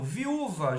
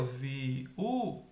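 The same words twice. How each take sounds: First: Said in the usual way. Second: "viúva" slowly as vi... ú... va; teacher spacing out "viúva", pausing between syllables; split into syllables. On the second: Shown as a demonstration. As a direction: break "viúva" into three separate syllables. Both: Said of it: "já tá separado aqui".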